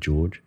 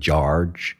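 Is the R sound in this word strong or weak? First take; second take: weak; strong. First: The R sound is weak or dropped. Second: The R sound is strongly pronounced. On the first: This is how it is said now. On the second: This is how it was said long ago.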